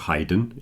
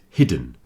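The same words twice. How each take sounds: First: The first vowel is long, like 'eye'. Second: The first vowel is short, like 'ih'. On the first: The speaker calls it wrong. "it's not hidden" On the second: The speaker calls it right. "it's hidden"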